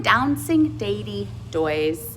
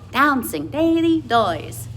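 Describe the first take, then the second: First: The D sounds are said clearly and strongly. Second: The D sounds are hidden, with vowels carrying sound.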